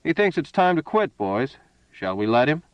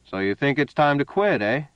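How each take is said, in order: First: Thrown higher to the henchmen, taunting; a touch of gloating menace; mocking to his men. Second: Flat, even, menacing monotone. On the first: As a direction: play to the gang, sneering at the mark. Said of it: "his voice reached out directly at his companions". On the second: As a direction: say it flat and cold. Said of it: "said in a monotone". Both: A narrator's reading.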